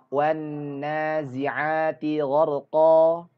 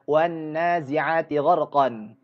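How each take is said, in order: First: The last word ends on a vowel, no n. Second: The last word ends with an n sound. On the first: The speaker calls it right. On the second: The speaker calls it wrong. "kita tidak membacanya"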